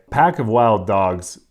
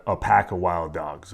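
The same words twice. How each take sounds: First: Pack of wild dogs repeated slower and louder, each word leaned on; stress on Pack of wild dogs. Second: Said in the usual way. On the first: Shown as a demonstration. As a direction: hammer home Pack of wild dogs for the listener.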